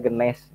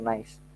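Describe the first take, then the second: First: It is pronounced the local Indonesian way. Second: It is pronounced the original, English-style way. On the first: "tapi kalau di bahasa Indonesia gneiss sebutnya" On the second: "sebetulnya dibacanya gneiss ya, nice"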